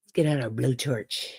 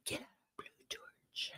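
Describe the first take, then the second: First: Said in the usual way. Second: Very soft voiceless whisper; barely audible, all breath. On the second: Real, not acted. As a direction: whisper it under your breath. Phrase repeated in a whisper.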